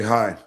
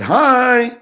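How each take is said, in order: First: Hi said low and flat, unimpressed; flat cold hi. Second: High, loud bright greeting; chirpy hi. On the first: Him answering her greeting, put off and cold. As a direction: drop the word Hi down, cool and curt. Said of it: "I was like". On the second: Coworker sticking her head in the door, chirpy. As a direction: pop the word Hi up high and cheery. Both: Retold or imitated.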